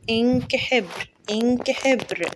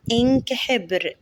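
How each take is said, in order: First: إنك said higher with a quick short i; teacher modelling إنك for pupils to repeat; short i demo. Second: Said in the usual way. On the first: Shown as a demonstration. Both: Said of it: "هنقول مع بعض".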